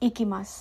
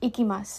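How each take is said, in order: No difference in how they are said.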